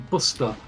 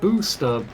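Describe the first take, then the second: First: The first vowel is short, like in Worcester. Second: The first vowel is a long oo sound. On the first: "if you said booster like you said Worcester, it would be Buster" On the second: "Like you have booster"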